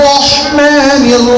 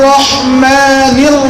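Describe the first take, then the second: The two takes are said the same way.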